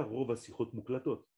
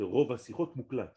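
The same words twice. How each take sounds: First: Muklatot with the mistaken -ot ending; wrong ending. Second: Muklat, cut short with no -ot; correct ending. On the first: Teacher quoting the common mistake, a wrong Muklatot. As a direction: Rov Asichot Muklatot, the error. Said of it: "On ne dit pas". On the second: Teacher correcting the phrase, a clear Muklat. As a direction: Rov Asichot Muklat, the right form. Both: Shown as a demonstration.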